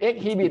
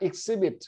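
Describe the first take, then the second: First: The h sound is pronounced in the middle. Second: The h sound is silent in the middle. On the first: The speaker calls it wrong. "ไม่เป็น" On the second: The speaker calls it right. "จะไม่ออกเสียงนะครับ"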